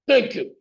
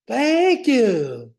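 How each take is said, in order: First: It is said in a barking drill sergeant voice. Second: It is said in a peppy cheerleader voice. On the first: "Here's my drill sergeant" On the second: "Here's my cheerleader. ... I need work on my cheerleader"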